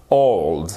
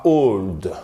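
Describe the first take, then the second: First: Put-on "Old" with the gliding o of "low"; lower, falling Old that rhymes with "rolled"; correct o sound. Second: Put-on "old" with a pure, closed o; slow, mispronounced old, flat French-style o; wrong vowel. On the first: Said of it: "Comme dans low". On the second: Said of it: "et pas old". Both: Shown as a demonstration.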